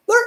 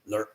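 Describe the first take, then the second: First: "ler" high and very short. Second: "ler" low and very short. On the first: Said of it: "say it in a high short tone". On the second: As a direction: drop a quick, low "ler". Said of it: "in a low short tone". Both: Shown as a demonstration.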